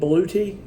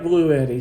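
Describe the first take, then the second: First: The name is said like 'Blue Tea'. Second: The name is said like 'Blue Eddy'. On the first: Many other people say it this way. "A lot of people are saying they're pronouncing it Blue Tea" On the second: The speaker prefers saying it this way. "I like Blue Eddy"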